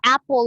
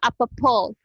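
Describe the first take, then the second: First: The P sound is single and short. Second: The P sound is doubled and held long. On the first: The speaker calls it right. "isa lang siya ka P" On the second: The speaker calls it wrong. "Dili siya apple"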